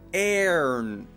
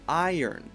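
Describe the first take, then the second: First: The first vowel sounds like 'air', mouth wide. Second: The first vowel sounds like 'eye', gliding. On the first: The speaker calls it wrong. "my mouth is way too wide. It looks like an A. Airn. That's incorrect" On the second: The speaker calls it right. "It should be I"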